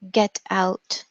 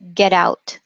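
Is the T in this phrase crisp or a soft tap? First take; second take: crisp; tap. First: The T is a crisp, clear stop. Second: The T is a soft, quick tap.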